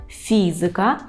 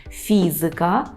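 Both takes have the same delivery.

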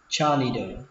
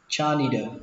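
First: The middle consonant sounds like a d. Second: The middle consonant sounds like a d.

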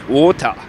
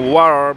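First: It is said in a British accent. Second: It is said in an American accent. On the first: "we say water by English" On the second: "and so water by American accent"

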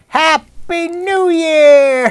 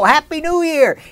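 First: It sounds somewhat like Santa Claus. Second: It is said in his ordinary voice.

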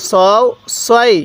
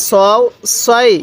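Both takes have the same delivery.

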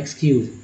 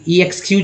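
First: The word starts directly with an 'ex' sound. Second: The word starts with a separate 'ee' sound. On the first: The speaker calls it right. "एक्स ही उच्चारण करेंगे" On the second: The speaker calls it wrong. "ई एक्सक्यूज ऐसा थोड़ी बोलते"

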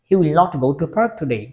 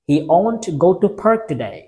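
First: The negative is said as two full words. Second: The negative is said as one contracted word. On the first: The speaker calls it wrong. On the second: The speaker calls it right.

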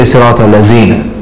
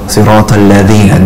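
First: The second word is said with a 'z' sound. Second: The second word is said with a 'th' sound. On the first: It sounds like a word meaning adornment. The speaker calls it wrong. "Some people say" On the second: It means those who. The speaker calls it right. "those who"

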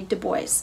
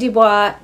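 First: The name is pronounced the US way. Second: The name is pronounced the Canadian way. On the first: "In the United States, it looks like you say Du Bois" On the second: "In Canada, you would say Dubois"

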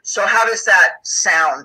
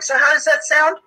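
First: The voice is pitched low, from the chest. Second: The voice is pitched high, like a question. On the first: The speaker sounds confident and in charge. The speaker calls it right. "I just dropped my tone down into my chest when I would say" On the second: The speaker sounds unsure and apologetic. The speaker calls it wrong. "Instead of going"

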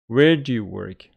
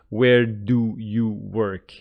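First: Do and you blend with a slight j sound. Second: Do and you are said as separate full words. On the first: The speaker calls it right. "These two are kind of mixed together or join each other ... You hear a slight j sound" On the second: The speaker calls it wrong. "So it's not like we pronounce it"

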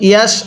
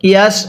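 The two takes are said the same way.

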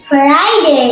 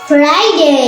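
Both takes have the same delivery.

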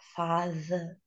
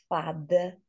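First: The middle consonant is a soft 'th' sound. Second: The middle consonant is a 'd' sound. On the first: The speaker calls it right. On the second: The speaker calls it wrong.

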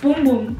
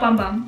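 First: The vowel is a long 'oo' sound. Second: The vowel is a short 'uh' sound. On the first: The speaker calls it right. "It's Boom Boom" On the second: The speaker calls it wrong. "not Bum Bum. I've been pronouncing it wrong my whole life"

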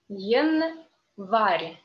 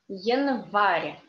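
First: The word is said slowly. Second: The word is said fast.

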